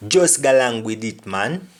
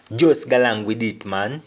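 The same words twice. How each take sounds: First: Patois line Just galang with it, man; Jamaican patois. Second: Patois, Just galang again; Jamaican patois. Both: Shown as a demonstration. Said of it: "Meaning, just go along with it".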